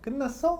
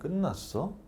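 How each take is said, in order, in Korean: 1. 기분 좋고 친근한 말투로 말해요. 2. 짜증 나고 퉁명스러운 말투로 말해요. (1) "되게 기분 좋게" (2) "이렇게 듣는 거죠"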